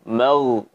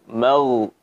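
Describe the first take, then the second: No difference in how they are said.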